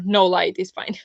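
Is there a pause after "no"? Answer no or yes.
no. It runs on without a pause after "no". Having no light at all is fine. "or no light"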